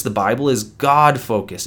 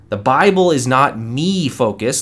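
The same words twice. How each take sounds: First: God stressed with a falling tune; God said firmly, falling at the end. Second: Bible and not stressed, me focused said lightly; pointed stress on not, before the answer. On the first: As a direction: land firmly on the word God as the answer. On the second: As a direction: set up the contrast by leaning on not. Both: Shown as a demonstration.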